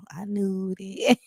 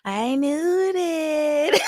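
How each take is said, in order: First: Said in the usual way. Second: Very slow, high, cry-laughing I knew that; high laughing wail; laughing hard. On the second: Real, not acted. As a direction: stretch it out through a crying laugh.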